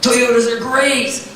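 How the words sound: It is said with warm, emotional tonality.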